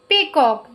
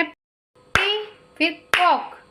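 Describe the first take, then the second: First: Said in the usual way. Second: पी and कॉक said as separate beats; slowly part पी from कॉक, as if clapping each; syllable by syllable. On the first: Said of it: "two parts में लिखा गया". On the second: Shown as a demonstration. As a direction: break पीकॉक into पी, फिर, कॉक. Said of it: "हर syllable के साथ में आपको clap".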